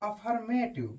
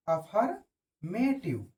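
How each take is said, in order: First: Said in the usual way. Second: affirmative drawn out very slowly; slow dictation. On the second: Shown as a demonstration. Teacher repeats the word slowly for students to copy. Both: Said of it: "repeats word slowly".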